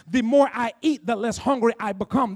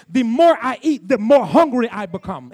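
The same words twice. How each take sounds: First: Said in the usual way. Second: Emphatic preacher's contrast on MORE; stress on MORE. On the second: Shown as a demonstration. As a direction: punch "more hungry" as the surprising twist. Contrasts spiritual with natural hunger.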